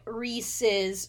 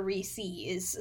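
First: Reese's said as REE-siz; short final vowel in Reese's, rhyming with pieces; standard pronunciation. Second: Reese's said as REE-seez; long EE ending on Reese's; alternative pronunciation. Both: Shown as a demonstration. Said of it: "it's about the pronunciation".

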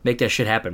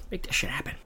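First: Said in the usual way. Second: Breathy whispered repeat; hushed whisper for emphasis. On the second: Shown as a demonstration. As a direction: whisper it again like a secret aside.

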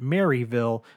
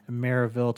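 First: "Maryville" said as Mary-vill; "Maryville" spelled-out style, Mary plus vill; non-local pronunciation. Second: "Maryville" said as Mare-uh-vill; "Maryville" with a reduced middle vowel, the local way; local pronunciation. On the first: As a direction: say "Maryville" with a clear ee in the middle. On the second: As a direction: soften the middle of "Maryville" to a quick uh. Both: Shown as a demonstration. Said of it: "no one around here pronounces it".

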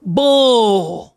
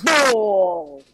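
First: "Bull" drawn out in a Southern drawl; Southern pronunciation. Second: "Bull" copied with a long vowel; attempted Southern pronunciation. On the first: Southerner drilling her learner, long drawled "Bull". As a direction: hold the vowel of "Bull" long, Southern style. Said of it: "the most Southern". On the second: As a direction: echo a drawn-out Southern "Bull", less forcefully. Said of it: "you gotta nail this accent". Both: Shown as a demonstration.

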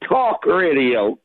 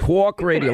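First: "talk radio" slow and lower, failed New York attempt; attempted New York accent. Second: "talk radio" with rounded New York aw in talk; New York pronunciation. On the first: Caller tries "talk radio" for host, slow unconvincing accent. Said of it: "Let me hear it". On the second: Host models "talk radio" for caller, New York demonstration. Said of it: "say it in a New York accent". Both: Shown as a demonstration.

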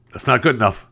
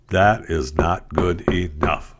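First: Said in the usual way. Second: Slow, every word set apart in "That is not good enough"; deliberate stress on each word of "That is not good enough"; slow emphatic repeat. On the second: Acted. Repeats objection slowly, word by word.

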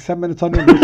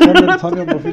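First: Mock challenge. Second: Higher, louder mock indignation; mock angry shout. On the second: Quarreling over the last conference pen, hammed-up angry shout. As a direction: puff up like an offended professor. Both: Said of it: "birbirimize girdik".

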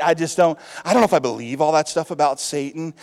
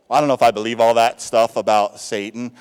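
First: Said in the usual way. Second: Lower, louder put-on sceptic voice; lightly voiced sceptic; doubting churchgoer. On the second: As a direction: imitate a doubter shrugging off Satan. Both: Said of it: "I've heard people say this".

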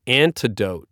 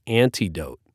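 First: Antidote with a reduced middle, AN-tuh-dote; standard antidote. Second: Antidote with a full EE, AN-tee-dote; own antidote pronunciation. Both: Shown as a demonstration. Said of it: "but I pronounce it antidote".

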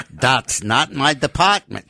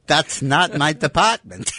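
First: Put-on German accent. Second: Hammed-up German accent, pitched higher. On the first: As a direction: deliver it like a deadpan German rocket scientist. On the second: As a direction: say it again with a comic German accent, amused. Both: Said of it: "He does a good German accent".

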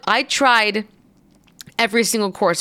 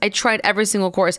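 First: Each word slow and weighted, "every single course" dragged out; insistent slow emphasis; slow, emphatic. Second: Fast, tossed-off "I tried every single course"; brisk throwaway restatement; quick repeat. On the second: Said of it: "Look, I tried every single course". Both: Shown as a demonstration.

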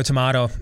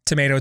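First: "tomato." with a broad AH; British-style pronunciation. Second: "tomato," with a long AY; American pronunciation. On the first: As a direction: say "tomato." as tuh-MAH-toh. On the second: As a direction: say "tomato," as tuh-MAY-toh. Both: Shown as a demonstration. Two pronunciations of one word.

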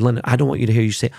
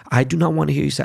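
First: Said in the usual way. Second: "do not" spelled out and pressed, a bit higher; stress on do not. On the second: Retold or imitated. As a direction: hit "do not" hard as a firm correction.

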